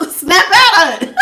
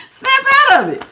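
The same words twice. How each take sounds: First: Laughing. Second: High, sharp snap out of it; mock wake-up call. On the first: Pretend. Reader jokes about shaking her viewer, laughing. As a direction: snap out of it through a laugh. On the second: Reader pretends to shake her viewer, high and sharp. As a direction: jolt them awake, pitched high. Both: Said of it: "I wish I could really just be like".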